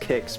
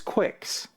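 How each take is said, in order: First: The word begins with a plain k sound. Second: The word begins with a kw sound. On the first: "it's supposed to be pronounced kicks" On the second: "if there's a Q, I'm gonna fucking pronounce it that way"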